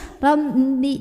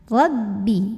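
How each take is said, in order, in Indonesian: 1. Pada b, udara keluar lewat hidung. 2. Pada b, bibir menahan udara, tidak ada udara sengau. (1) "jangan sampai ada suara masuk hidung, ya. Rabbi, jangan" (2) "di bibir"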